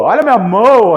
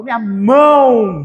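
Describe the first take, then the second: First: Mão with a full O at the end, "mã-o"; exaggerated wrong mão, O not turned to U; mispronounced mão. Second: Mão ending in a U glide, "mãu"; drawn-out natural mão, one syllable closing on U; correct mão. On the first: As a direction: stretch mão, sounding the final O as written. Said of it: "Porque eu não falo mão". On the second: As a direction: say mão with the O sounding as U. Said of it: "Esse O tem som de U". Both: Shown as a demonstration.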